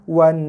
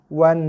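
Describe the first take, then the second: The two takes are said the same way.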